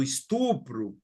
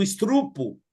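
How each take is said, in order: First: Said in the usual way. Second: Estrupo with R moved forward; mispronounced estrupo. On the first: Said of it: "Eu posso falar o português correto". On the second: Shown as a demonstration. Showing what not to say, estrupo with misplaced R. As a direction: say estrupo as 'is-TRU-po'. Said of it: "não, eu não falo assim".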